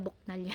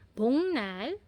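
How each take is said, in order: First: A K sound comes before the N. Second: An NG sound comes before the N. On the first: The speaker calls it wrong. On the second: The speaker calls it right.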